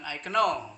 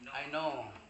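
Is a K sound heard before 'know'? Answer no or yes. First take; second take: yes; no. First: A K sound is pronounced before the N. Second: The K is silent, starting with N. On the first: The speaker calls it wrong. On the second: The speaker calls it right.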